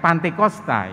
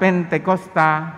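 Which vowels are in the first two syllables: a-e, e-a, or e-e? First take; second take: a-e; e-e. First: The first two vowels are a then e. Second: The first two vowels are e then e. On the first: It reflects how Indonesian tongues often say it. "Bukan Pantekosta ya, bukan" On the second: It comes from the English word. "Yang mengucap Pentekosta rupanya orang yang fasih berbahasa Inggris"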